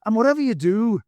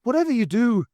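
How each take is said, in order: First: High, loud earnest warning; an earnest Irish warning; serious warning. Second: High, loud urgent Irish plea; a pressing Irish cry. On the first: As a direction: warn him in mock earnest. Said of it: "he added seriously". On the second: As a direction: beg him, pitched up and pressing. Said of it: "said Pat urgently". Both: Acted.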